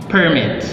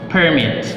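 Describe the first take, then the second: No difference in how they are said.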